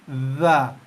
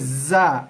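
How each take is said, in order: First: The consonant is a soft th sound. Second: The consonant is a buzzing z sound. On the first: The speaker calls it right. "ujung lidah keluar sikit, kena gigi atas" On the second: The speaker calls it wrong. "Biasa kebanyakannya membaca dengan za, za. Salah"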